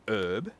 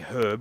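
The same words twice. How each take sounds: First: It is said the American way. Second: It is said the speaker's local British way.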